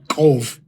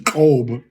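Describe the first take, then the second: First: The syllable ends with a clear V sound. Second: The syllable ends with a soft B sound. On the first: The speaker calls it right. "you can still hear it. It's, it's a harder pronunciation" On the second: The speaker calls it wrong. "It gets lost"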